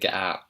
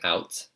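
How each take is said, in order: First: The t is replaced by a glottal stop. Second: The t is pronounced as a clear t. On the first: "She's saying get out. So she's really heavily pronouncing that glottal stop there" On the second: "So she's not saying"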